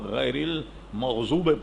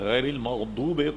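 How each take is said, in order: First: The word is said with a z sound. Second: The word is said with a d sound. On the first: The speaker calls it wrong. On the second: The speaker calls it right.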